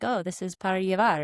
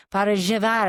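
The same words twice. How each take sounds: First: "para llevar" with a plain Spanish "ll" like a y; first try at "para llevar", even pitch; ordering to go. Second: Louder repeat. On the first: Tourist at a coffee shop orders "para llevar" in plain textbook Spanish. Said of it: "and I'd be like". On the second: Misunderstood tourist repeats her coffee order louder, with the local "zh" sound. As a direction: raise the voice and spell out "Para llevar" for the barista. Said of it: "And I'd be like". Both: Retold or imitated.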